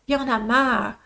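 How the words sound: It is said in a weary, tired tone. The speaker is simply worn out by the situation. "The other one, you're just tired of it"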